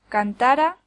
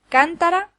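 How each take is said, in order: First: The stress is on the middle syllable. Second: The stress is on the first syllable. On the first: It is a subjunctive verb form. "La segunda es una forma subjuntiva del verbo cantar" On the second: It names a vessel. "La primera es una vasija"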